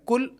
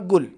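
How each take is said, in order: First: It starts with a light k sound. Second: It starts with a g sound. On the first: "कुछ अफराद इसको काफ या गाफ जैसा पढ़ते हैं" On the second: "ये दोनों तलफ़ुज़ सही नहीं है"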